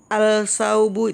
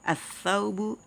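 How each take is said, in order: First: The l sound is pronounced before the s. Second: The l merges into a doubled s sound. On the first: The speaker calls it wrong. "itu salah ya" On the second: The speaker calls it right. "Tapi langsung masuk"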